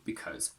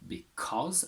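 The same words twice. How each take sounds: First: The vowel is reduced and weak. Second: The vowel is full, not reduced. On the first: "a weak form because" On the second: "a strong form because"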